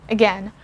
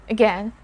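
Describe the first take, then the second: Both takes have the same delivery.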